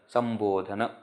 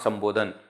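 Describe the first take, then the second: First: The word ends with a short final 'a' vowel. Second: The word ends on a consonant, without final vowel. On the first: The speaker calls it right. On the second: The speaker calls it wrong. "not Sambodhan"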